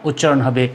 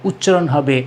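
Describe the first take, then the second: No difference in how they are said.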